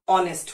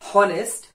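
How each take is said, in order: First: The word begins directly with a vowel sound. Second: The word begins with an audible h sound. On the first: The speaker calls it right. "एच silent है" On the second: The speaker calls it wrong. "ये चारों ही pronunciation बिल्कुल गलत है"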